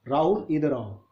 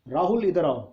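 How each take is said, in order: First: It is said at medium loudness. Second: It is shouted loudly.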